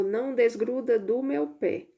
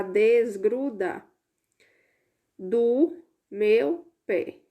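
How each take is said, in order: First: Said in the usual way. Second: "desgruda do meu pé" spelled out slowly, word by word; slow read-out. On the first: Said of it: "Então, a frase ficou". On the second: Shown as a demonstration. Teacher slowly decodes the hidden sentence for pupils. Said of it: "tirando o P antes de cada uma dessas sílabas".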